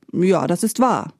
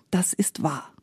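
First: Said in the usual way. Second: Softer, half-murmured confession; murmured admission. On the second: A narrator's reading. Shamefaced maid confesses to Espen from the sack, murmuring. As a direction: murmur it softly. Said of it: "murmelte sie".

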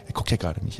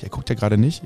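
First: Whispered aside, much softer. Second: Said in the usual way. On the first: Acted. Wizard whispering that Grimmel isn't looking. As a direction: hush it so Grimmel can't hear. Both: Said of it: "Ich sag trotzdem gerade sehr laut".

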